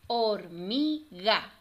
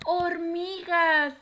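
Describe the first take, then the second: First: Slow "Hor-mi-ga" in three beats; teacher counting out each syllable of "Hormiga". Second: High, loud, drawn-out "Hormiga"; joined-up, triumphant "Hormiga"; cheering the answer. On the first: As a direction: split "Hormiga" with clear gaps. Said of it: "vamos a separar cada una". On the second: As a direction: celebrate the right answer with the children. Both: Shown as a demonstration.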